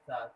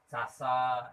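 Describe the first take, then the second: First: The s is made at the tongue tip. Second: It has an ordinary, plain s sound. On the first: "Kalau ini ujung lidah" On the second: "es biasa"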